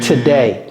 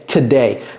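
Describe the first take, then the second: Both takes have the same delivery.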